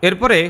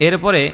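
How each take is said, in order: No difference in how they are said.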